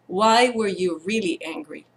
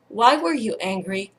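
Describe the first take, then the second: First: Gentle question leaning on "really"; quiet, probing question with emphasis on "really"; stress on REALLY. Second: Said in the usual way. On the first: Retold or imitated. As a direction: softly press the word "really". Child repeats question, pressing on really.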